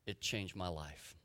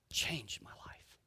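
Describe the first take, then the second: First: Said in the usual way. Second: Slow hushed whisper of the phrase; whispered echo. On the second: Shown as a demonstration. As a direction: breathe it out like a secret awe. Echo of previous line, whispered.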